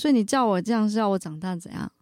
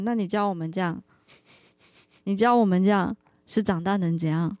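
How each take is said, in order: First: The question sounds fierce and aggressive. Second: The question sounds mild, without aggression.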